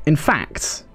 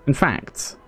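Both takes have the same delivery.

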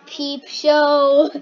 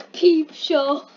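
First: Said in the usual way. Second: Savoring saying it with a laugh; enjoy saying it, half laughing; relishing the words. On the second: Shown as a demonstration. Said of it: "I just like saying Peep Show".

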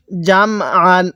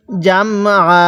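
First: আন closed on a sounded final "n"; joined reading. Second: আ left open and held, with no final "n"; waqf pausal reading. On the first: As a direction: say জাম, then আন ending in "n". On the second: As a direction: stop on a long open আ after জাম. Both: Shown as a demonstration. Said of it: "ওয়াকফ করলে কিভাবে পড়ব?".

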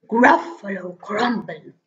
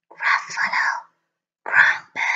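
First: Horrified Gruffalo. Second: Spooky whisper. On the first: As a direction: echo the words in dawning horror. Gruffalo repeats in horror. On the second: The mouse threatening the Gruffalo, a spooky whisper. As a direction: hiss it to scare the Gruffalo. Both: Acted.

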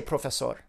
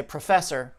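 First: "professor" said as pro-fe-SOR with round o sounds; "professor" the Spanish way, full sor ending; Spanish pronunciation. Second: "professor" with a reduced pruh and an r-coloured er; "professor" the English way; English pronunciation. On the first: Testing the patient by saying the word, Spanish sounds. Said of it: "If I say". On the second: Testing the patient by saying the word, English sounds. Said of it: "But if I say". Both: Shown as a demonstration.

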